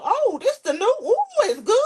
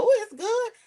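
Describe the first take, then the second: First: High, louder fake delight over the gum; mock enthusiastic. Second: "Ooh" swooped up high in fake delight; mock enthusiastic. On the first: Daughter acting out mother's gum trick, high fake delight. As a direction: oversell the gum like it's a treat. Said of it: "That's what she told me". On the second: Pretending to enjoy gum to coax someone, high fake delight. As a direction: sell "Ooh, it's good" with a high swoop. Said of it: "Put one in your mouth and tell".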